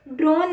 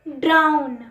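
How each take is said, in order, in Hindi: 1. स्वर 'bone' के 'oh' जैसा सुनाई देता है। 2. स्वर 'down' के 'ow' जैसा सुनाई देता है। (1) "ड्रोन नहीं होता" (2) "बट इसमें हम बोलते हैं ड्राउन, मतलब डूबना।"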